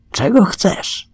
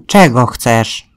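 First: Slow, high-pitched question; Gryz's questioning. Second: Slow, louder goat's question; talking goat. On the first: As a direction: ask it slowly, pitched well up. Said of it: "spytał Gryz". (Gryz pyta powoli, wysokim głosem) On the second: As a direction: answer slowly as the goat, a bit raised. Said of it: "zapytał kozioł". (kozioł pyta powoli i głośniej) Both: Acted.

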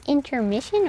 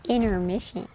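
First: "intermission" with a clear T after the N; T pronounced. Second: "intermission" starting like the word inner; T dropped. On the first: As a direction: sound the T in "intermission". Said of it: "you actually pronounce the T". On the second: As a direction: drop the T in "intermission". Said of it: "sounds like you're saying inner". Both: Shown as a demonstration.

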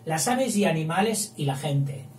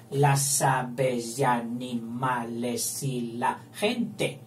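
First: Said in the usual way. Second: Slow metrical reading of the verse; slow scansion. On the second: Shown as a demonstration. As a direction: stretch the line to count its syllables. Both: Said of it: "pasamos a la B mayúscula".

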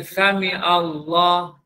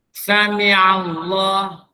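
First: Sami Allah said slowly, ain dropped like alif; slow Sami Allah without the ain; wrong pronunciation. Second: Sami Allah said slowly with the ain in Sami; correct ain pronunciation. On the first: Teacher mimicking young imam's mistake, slow wrong recitation. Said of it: "Dia bukan Sami Allah". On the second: Old teacher correcting young imam, slow careful recitation. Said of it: "Pak Cu ni kata dengan dia". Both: Shown as a demonstration.

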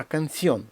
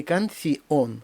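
First: Canción as can-ción, stress on gliding ió; unbroken diphthong. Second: Canción slowly as can-ci-on; broken diphthong. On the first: Teacher corrects the reading, diphthong whole. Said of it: "щоб він не розбився". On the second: Teacher shows the wrong reading, vowels split. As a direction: separate i from on in canción. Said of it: "Не canción". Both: Shown as a demonstration.

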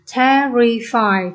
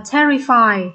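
First: "terrify" very slowly as te-rri-fy; syllable by syllable. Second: Said in the usual way. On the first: Shown as a demonstration. Teacher having students feel the throat vibrate, syllable by syllable. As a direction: break "terrify" into three drawn-out syllables. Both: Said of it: "Khi đọc ba âm tiết này".

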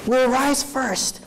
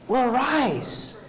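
First: Will rise first, higher and slow, each word leaned on; slow emphatic repeat. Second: Said in the usual way. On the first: Shown as a demonstration. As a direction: drive Will rise first home slowly to the crowd.

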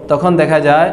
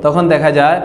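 The two takes are said the same way.

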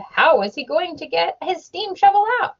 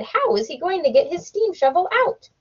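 First: Questioning Henry B. Swap. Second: Questioning Missus McGillicuddy. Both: A narrator's reading.

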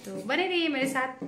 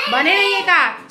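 First: Said in the usual way. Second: Higher and much louder, sing-song; hammed-up stay-tuned call; loud playful callout. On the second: Shown as a demonstration. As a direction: belt the sign-off phrase to the viewers.

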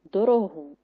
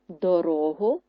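First: ДороГУ with the final syllable stressed; do-ro-HU, weight at the end; stress on last syllable. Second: ДоРОгу with the middle syllable stressed; do-RO-hu, weight in the middle; stress on second syllable. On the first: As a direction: land hard on ГУ in дорогу. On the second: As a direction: stretch the РО in дорогу. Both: Shown as a demonstration. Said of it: "Наголос може змінити значення слова".

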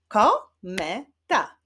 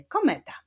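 First: "Kometa" slowly split as ko, me, ta; syllable by syllable. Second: Said in the usual way. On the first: Shown as a demonstration. Teacher clapping syllables with pupils, "Kometa" said syllable by syllable. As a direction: sound out "Kometa" in three separate beats. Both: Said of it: "Zacznijmy wyklaskiwać".

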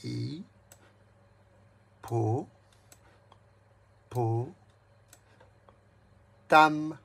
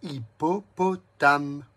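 First: "Hi-po-po-tame" split into four separated beats, extremely slow; Hi-po-po-tame chopped into syllables for a child. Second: "Hippopotame" drawn out slowly, a touch louder; slow syllable count. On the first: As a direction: tap out each syllable of "Hi-po-po-tame". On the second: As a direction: stretch "Hippopotame" so each syllable sounds. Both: Shown as a demonstration. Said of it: "Quatre syllabes".

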